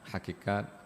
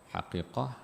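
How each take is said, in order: First: The word ends with a t sound. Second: The word ends with an h sound. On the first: This is the local form of the term. "Kalau bahasa kita di sini kita gunakan" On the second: This is the original form of the term. "Kalau kita gunakan bahasa betulnya ialah"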